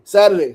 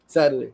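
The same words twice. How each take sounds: First: Saturday said louder, pitched up, insisting; emphatic correction. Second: Said in the usual way. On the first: Shown as a demonstration. Correcting the day to viewers, Saturday said louder and higher. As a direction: hit the word Saturday hard to correct yourself.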